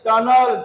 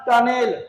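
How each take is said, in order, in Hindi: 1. आखिरी अक्षर में हल्का 'uh' स्वर है। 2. आखिरी अक्षर में पूरा 'e' स्वर है। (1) "ई को अ पढ़े हैं।" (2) "नॉट टनेल"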